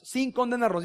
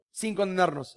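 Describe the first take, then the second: First: "sin" lifted high and emphatic; stress on sin. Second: Said in the usual way. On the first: Shown as a demonstration. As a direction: lift "sin" to drive it home. (énfasis en "sin", más agudo)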